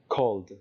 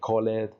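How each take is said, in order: First: The ending is a bare d sound, no syllable. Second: The ending is said as an extra syllable. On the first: The speaker calls it right. "no le añado una sílaba extra" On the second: The speaker calls it wrong. "nada de call it"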